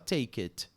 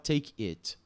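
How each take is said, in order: First: The two words are joined together. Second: The two words are said separately. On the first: The speaker calls it right. "você junta tudo" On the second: The speaker calls it wrong. "Você não fala take it"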